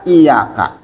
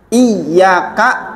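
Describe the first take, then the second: First: The y sound is short and single. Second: The y sound is held long and doubled. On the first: The speaker calls it wrong. "bukan iyaka" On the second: The speaker calls it right. "Ya-nya harus double"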